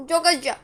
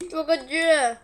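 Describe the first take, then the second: First: Loud pained cry from spice; burning exclamation. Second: Long loud pained groan; drawn-out burning cry. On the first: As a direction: blurt it out as the heat hits. Just bit a very hot pepper. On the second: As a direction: stretch it out, mouth on fire. Pepper burning, second cry. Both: Real, not acted.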